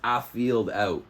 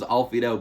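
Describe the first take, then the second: First: The name is said as 'a field out'. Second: The name is said as 'alfied out'. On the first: The speaker calls it right. "but it's a field out" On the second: The speaker calls it wrong. "I always thought it was Alfied out"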